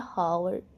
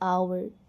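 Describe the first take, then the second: First: The word begins with an audible h sound. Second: The word begins with a vowel, h silent. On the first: The speaker calls it wrong. "यहाँ थोड़ा सा pronunciation mistake हो गया" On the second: The speaker calls it right. "एच उसमें silent होता है"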